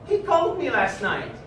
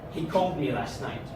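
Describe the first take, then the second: First: It is said in a happy tone. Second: It is said in an annoyed tone. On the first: The news is welcome. "as if I'm extremely happy with what I heard" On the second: The news is unwelcome. "like I'm extremely annoyed with this information"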